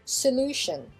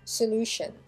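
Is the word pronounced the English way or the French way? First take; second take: English; English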